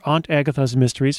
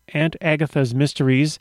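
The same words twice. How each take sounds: First: Aunt is said with an East Coast pronunciation. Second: Aunt is said with a non-East Coast pronunciation.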